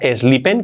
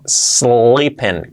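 First: An extra e vowel comes before the s. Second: The word begins directly with the s sound. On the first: The speaker calls it wrong. "cuidado que no sea sleeping con E antes" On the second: The speaker calls it right. "no, sleeping"

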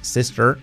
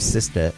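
First: The final r is strong, American-style. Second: The final r is soft, British-style. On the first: "en vez de sister" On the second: "la R británica, muy pocos españoles hemos visto que la hagan realmente bien. Sería algo así como sister"

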